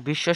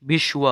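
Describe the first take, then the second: First: Said in the usual way. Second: বিশ্ব ending in a w glide, bish-wo; Sanskrit pronunciation. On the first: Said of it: "শব্দের". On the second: Shown as a demonstration. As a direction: sound the W in বিশ্ব. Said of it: "সংস্কৃত উচ্চারণ হবে". (বিশ্ব, ব-ফলায় ওয়-ধ্বনি)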